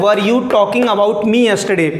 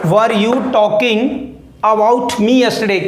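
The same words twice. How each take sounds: First: Slow dictation pace, every word clear; slow model sentence. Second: Very slow, pausing between phrases; word by word. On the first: Teacher reading the board sentence to students, slowly. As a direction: read slowly and clearly for the class. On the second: Teacher breaking the sentence into chunks for students, very slow. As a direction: break it into pieces for learners to repeat. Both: Shown as a demonstration. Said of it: "क्या लिखा है मैंने यहाँ पे?".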